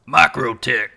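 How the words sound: It is said in a gruff, put-on tactical voice.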